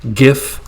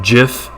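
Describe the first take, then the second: First: The word begins with a hard g sound. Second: The word begins with a soft j sound. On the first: "some people pronounce it with a hard G" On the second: "Others pronounce it with a soft G"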